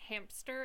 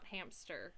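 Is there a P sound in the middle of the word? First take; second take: yes; no. First: A P sound is heard after the M. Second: No P sound is heard after the M. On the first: The speaker calls it wrong. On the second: The speaker calls it right.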